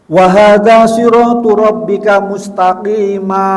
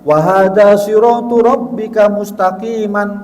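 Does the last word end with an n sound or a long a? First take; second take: long a; n sound. First: The last word ends in a long a vowel. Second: The last word ends with an n sound. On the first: The speaker calls it right. "kalau berhenti wakaf maka menjadi mustaqima" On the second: The speaker calls it wrong. "tidak boleh dibaca"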